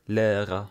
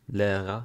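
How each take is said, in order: Both takes have the same delivery.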